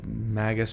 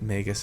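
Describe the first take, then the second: First: The first part sounds like the word magic. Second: The first part does not sound like magic. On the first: "to have it sound like magic" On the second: "a lot of you think that Magus is the correct way to say it"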